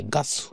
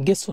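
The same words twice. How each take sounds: First: গাসু said with a clear "a" in the first syllable, ga-su; গাসু, ga-su, said carefully as the correct form; correct pronunciation. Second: গেসু said with "e", ge-su, as the form to avoid; গেসু, ge-su, shown as the wrong form; wrong pronunciation. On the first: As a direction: say গাসু as ga-su, not ge. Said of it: "গাসু উচ্চারণটা হয়". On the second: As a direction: say গেসু as the mistaken ge-su. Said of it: "গেসু না". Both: Shown as a demonstration.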